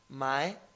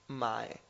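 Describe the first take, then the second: First: The syllable has a rising second tone. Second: The syllable has a low dipping third tone. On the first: "se convierte el primero en un segundo tono, por eso he dicho mae" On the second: "las dos tienen el mismo tono"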